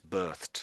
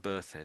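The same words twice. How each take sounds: First: The ending is a T sound. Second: The ending is not a T sound. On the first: The speaker calls it right. "it's a T sound on the end" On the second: The speaker calls it wrong. "it's never birthed"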